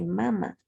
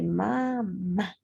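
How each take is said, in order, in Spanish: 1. El acento está en la primera sílaba. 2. El acento está en la última sílaba. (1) "Si yo no le coloco la tildación" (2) "cuando yo lo tildo"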